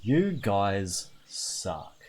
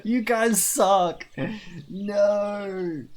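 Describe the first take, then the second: First: Very slow, low grumble; deflated resignation. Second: High, slow, drawn-out complaint; hammed-up wail at a betrayal; mock outrage. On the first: Acted. Streamer gives in to chat's choice, deflated grumble. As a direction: draw out each word in defeat. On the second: Streamer scolds chat over haircut options, mock outrage. Protesting chat's haircut choices.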